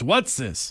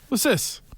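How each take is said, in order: First: The T in "what's" is clearly pronounced. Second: The T in "what's" is dropped. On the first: The speaker calls it wrong. "he goes" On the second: The speaker calls it right. "You don't pronounce that T"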